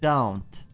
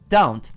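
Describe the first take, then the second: First: The word is stressed and drawn out. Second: The word is said short and plain. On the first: "Emphasize it, make it longer" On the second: "instead of saying like don't"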